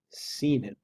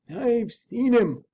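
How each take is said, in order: First: Said in the usual way. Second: Higher, very slow servant voice; hushed-slow servant's reveal; servant awed. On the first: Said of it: "repeated Mister Utterson". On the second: Acted. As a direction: let it sink in slowly as the frightened servant.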